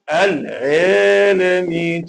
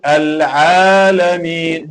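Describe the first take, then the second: First: The long vowel is pulled toward an ee sound. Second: The long vowel is an open a sound. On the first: The speaker calls it wrong. "it will sound like a ya" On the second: The speaker calls it right. "instead of saying"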